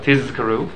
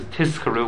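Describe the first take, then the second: First: "Tizkaru" with a clearly voiced Z; Z sound. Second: "Tizkaru" with an unvoiced S, as "Tiskaru"; S sound. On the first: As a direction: buzz the z in "Tizkaru", never an s. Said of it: "Z sound". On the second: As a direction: make the z in "Tizkaru" a hissed s. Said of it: "S sound". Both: Shown as a demonstration.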